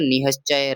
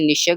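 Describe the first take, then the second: First: An h sound comes before sh. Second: There is no h sound before sh.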